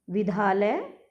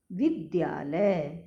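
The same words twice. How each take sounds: First: विद्यालय without its y, "vidhaalay"; mispronounced विद्यालय. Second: विद्यालय slowly, "vid-dyaa-lay"; correct विद्यालय. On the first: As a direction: drop the y glide from विद्यालय. (विद्यालय का गलत उच्चारण, "विधालय") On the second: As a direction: sound d and y clearly in विद्यालय. (विद्यालय में द्य साफ़, धीरे) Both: Shown as a demonstration. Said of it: "विद्यालय नहीं".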